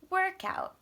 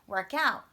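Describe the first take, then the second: First: The stress is on the first part. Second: The stress is on the second part. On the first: It is a noun naming a thing. "our two nouns change patterns now" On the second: It is a verb meaning to exercise. "verbs would be on the second"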